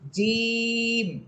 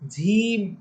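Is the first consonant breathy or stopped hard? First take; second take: hard; breathy. First: The first consonant holds the air, sounding hard. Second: The first consonant lets air escape, sounding breathy. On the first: The speaker calls it right. "বাতাসটাকে আটকিয়ে শক্ত করে বলবেন জিম" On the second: The speaker calls it wrong. "ঝিম বলে বাতাস বের করে দিয়ে, বাতাস বের করা যাবে না"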